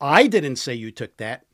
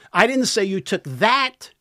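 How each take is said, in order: First: The stress is on the word 'I'. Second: The stress is on the word 'that'. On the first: Someone else said it. "Somebody else did" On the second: The listener took something else. "Took something else"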